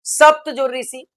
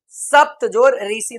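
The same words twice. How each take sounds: First: Said in the usual way. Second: सप्त जोड़ ऋषि spelled out slowly, part by part; slow teacher breakdown. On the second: Shown as a demonstration. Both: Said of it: "उदाहरण".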